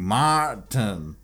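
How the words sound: The name is said in a put-on Southern accent.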